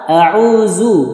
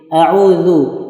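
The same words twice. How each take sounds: First: The consonant is a buzzing z, tongue kept inside. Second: The consonant is a th-like sound, tongue slightly out. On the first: The speaker calls it wrong. "Yang salah" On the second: The speaker calls it right. "Dia agak sedikit dikeluarkan lidahnya"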